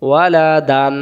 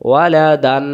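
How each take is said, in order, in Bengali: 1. শব্দটি 'an' ধ্বনি দিয়ে শেষ হয়। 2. শব্দটি 'an' ধ্বনি দিয়ে শেষ হয়।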